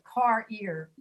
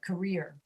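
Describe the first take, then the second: First: The first syllable is a full, separate 'car'. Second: The first syllable is reduced to a quick 'k'. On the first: The speaker calls it wrong. "that doesn't sound right" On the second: The speaker calls it right. "We say k, just the letter k, and then rear"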